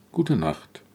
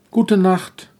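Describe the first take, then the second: First: Viel leiser, müde nachgesprochen; leises Echo. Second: Said in the usual way. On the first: Acted. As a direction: gute Nacht fast verklingen lassen. Leise zweite Antwort. (leise gute Nacht, wie schon halb im Schlaf)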